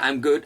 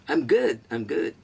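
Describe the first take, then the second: First: Said in the usual way. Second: Cocky, higher I am good, tossed off; with attitude. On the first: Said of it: "You can just say". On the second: Shown as a demonstration. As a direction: say it with a bit of swagger. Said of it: "चलिए, बोलिए". (थोड़े attitude के साथ)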